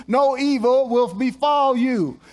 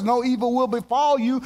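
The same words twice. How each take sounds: First: "No evil will befall you" slower, stress on "No"; slow down and lean on "No"; deliberate, weighty declaration; emphatic repeat. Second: Said in the usual way. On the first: Shown as a demonstration.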